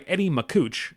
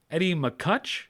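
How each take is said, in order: First: "Makuch" said with an oo, like "ma-KOOCH"; name mispronounced. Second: "McCutch" with a short u, like "muh-KUTCH", rising; corrected name. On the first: Host reading the reporter's name, "Makuch" as ma-KOOCH. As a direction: say "Makuch" to rhyme with "pooch". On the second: Host retrying the reporter's name, "McCutch" as a questioning muh-KUTCH. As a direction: say "McCutch" to rhyme with "Dutch", as if asking. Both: Real, not acted. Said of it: "I'm sorry I said that".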